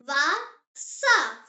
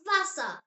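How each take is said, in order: First: "Wasser" split into two separate syllables; slow model pronunciation. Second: Said in the usual way. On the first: Shown as a demonstration. Teacher has learners repeat the German word, slow model pronunciation. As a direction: say "Wasser" slowly, with a gap mid-word. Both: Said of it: "Say it".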